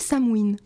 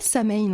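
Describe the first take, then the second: First: The second syllable starts with a W sound. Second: The second syllable starts with an H sound. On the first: The speaker calls it right. "Ça se dit Sam Win" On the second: The speaker calls it wrong. "ça se dit pas Sam Hain en fait"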